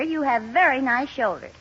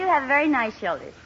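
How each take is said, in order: First: It sounds sincere and earnest. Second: It sounds insincere and offhand.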